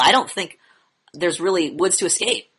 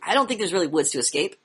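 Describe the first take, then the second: First: It is said in a flat, monotone voice. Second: It is said with lively, varied inflection. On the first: The speaker does not care about the thought. The speaker calls it wrong. "That's what your monotone voice says" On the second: The thought is important and worth listening to. The speaker calls it right. "This means pay attention, dude"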